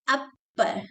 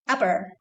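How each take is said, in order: First: The double p is held long and stressed. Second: The double p is passed over quickly. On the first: The speaker calls it wrong. "not upper" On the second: The speaker calls it right. "Go fast"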